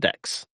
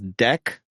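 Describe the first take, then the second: First: The name ends with a ks sound. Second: The name ends with a plain k sound. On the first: The speaker calls it wrong. "not Dex" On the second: The speaker calls it right. "His name is Deck"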